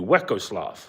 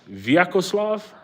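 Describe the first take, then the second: First: The name begins with a W sound. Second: The name begins with a V sound. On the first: "It's a W, right? So it would be" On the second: "the V usually isn't a, a V sound for you guys"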